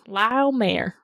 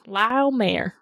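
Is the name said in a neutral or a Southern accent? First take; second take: Southern; Southern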